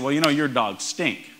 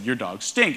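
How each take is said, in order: First: Lazy Southern US drawl, words stretched out. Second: Said in the usual way. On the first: Retold or imitated. Inventor to judges, Southern accent mocking the pitch. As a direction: drawl it like a Southern good old boy. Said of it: "the rather southern drawl I just affected". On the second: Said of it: "but he more or less said".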